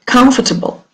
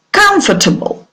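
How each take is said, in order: First: "Comfortable" said with the stress on COM; stress on first syllable. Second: COMfortable, the first syllable "Com" stressed. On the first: Teacher repeating the word for the class, first syllable stressed. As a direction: hit COM in "Comfortable", the rest light. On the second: Teacher modelling stress for students, COMfortable stressed at the start. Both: Shown as a demonstration. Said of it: "the stress is on the first syllable".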